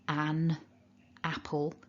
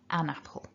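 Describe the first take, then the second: First: The two words are said clearly apart. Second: The final n joins onto the next word. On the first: "really distinctive" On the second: "in joined up connected speech"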